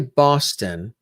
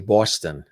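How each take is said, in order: First: It is said carefully, with a neutral accent. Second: It is said loosely, with a stronger regional accent. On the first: "I'll say Boston" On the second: "if I'm really super relaxed ... I might say Boston"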